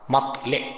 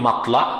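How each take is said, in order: First: The word ends in an 'e' vowel. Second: The word ends in an 'a' vowel. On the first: The speaker calls it right. "বিকাসরিল লাম, মাতলে" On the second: The speaker calls it wrong. "আমরা ভুল বলি মাতলা"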